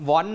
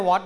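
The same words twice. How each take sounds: First: "want" with a clear n before the final t. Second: "what" as the mistaken form, no n before the t; what, without the n. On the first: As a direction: sound the n in "want". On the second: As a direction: drop the n so it comes out "what". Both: Shown as a demonstration. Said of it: "ไม่ใช่ what นะ".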